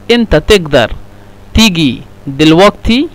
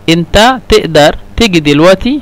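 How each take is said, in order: First: The q sound is said as a hard g. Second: The q sound is said as a glottal stop. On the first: "لو نستخدم غين" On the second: "لو احنا نستخدم قف يعني همزة"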